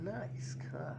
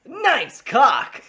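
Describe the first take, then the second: First: Full Throttle quote. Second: High loud punchy line; crisp Full Throttle quote. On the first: Pretend. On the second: Shown as a demonstration. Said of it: "really crisp whenever I say it".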